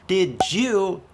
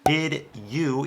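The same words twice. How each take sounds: First: The words blend together into one reduced sound. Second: Both words are said separately and fully. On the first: The speaker calls it right. "is one hundred percent natural American English" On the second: The speaker calls it wrong. "is way too textbook"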